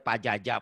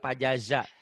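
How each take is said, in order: First: The last consonant is pronounced as a 'j' sound. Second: The last consonant is pronounced as a 'z' sound. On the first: The speaker calls it wrong. "Orang Sunda emang begitu ya" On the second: The speaker calls it right. "Padahal pajaza. Z"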